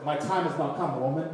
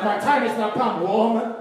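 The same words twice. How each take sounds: First: Said in the usual way. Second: Raised, loud mock talking-back; mock defiant son. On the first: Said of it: "And she said". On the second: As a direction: declare it loudly, playing a cheeky son. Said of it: "if I talk like that to my mom".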